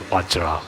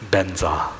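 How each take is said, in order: First: It begins with a V and ends in -jra. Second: It begins with a B and ends in -nza. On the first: It is the strictly correct pronunciation. "to get the pronunciation correctly, then definitely uh, Vajra is Vajra" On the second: It follows the way one's own teachers say it. "we always pronounce it as benza"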